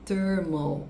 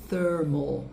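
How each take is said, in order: First: The th is replaced by a t, f or v. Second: The word starts with a soft, breathy th sound. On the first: The speaker calls it wrong. "não é thermal" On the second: The speaker calls it right. "é thermal"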